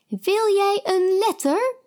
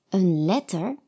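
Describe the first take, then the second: First: High odd voice offering een letter; odd lady. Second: Said in the usual way. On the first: A narrator's reading.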